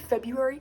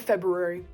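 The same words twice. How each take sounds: First: The first R sound is left out. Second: The first R sound is clearly pronounced. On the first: The speaker calls it wrong. "you are ignoring that R" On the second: The speaker calls it right. "that is the correct way to say it"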